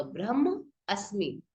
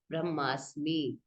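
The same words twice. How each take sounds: First: Slow ब्रह्म अस्मि with ब्रह्म and अस्मि spoken as separate words; ब्रह्म अस्मि spelled out word by word; split into two words. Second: Slow ब्रह्मास्मि with the long aa sound joining the two words; fuse them into ब्रह्मास्मि, drawing out the aa; ब्रह्मास्मि as one smooth word; joined form. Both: Shown as a demonstration. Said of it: "इसलिए डंडा लगा हुआ है आ का".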